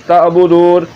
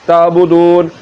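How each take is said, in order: Both takes have the same delivery.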